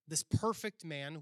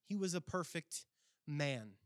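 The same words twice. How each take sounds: First: Said in the usual way. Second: "man" set apart after a short pause; stress on man. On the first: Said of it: "the second word there". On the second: Shown as a demonstration. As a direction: land separately on the word "man". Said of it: "But the second word there".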